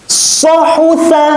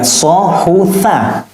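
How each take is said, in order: First: Sohutha recited high, drawn and firm; fast recitation. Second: Slow, syllable by syllable; slow reading. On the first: Teacher shows the fast, firm chanted reading of sohutha. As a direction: chant sohutha firmly, as a quick tajwid reading. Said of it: "Ketika baca cepat". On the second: Teacher first reads Sohutha slowly, letter by letter. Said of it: "perbedaan lisannya". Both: Shown as a demonstration.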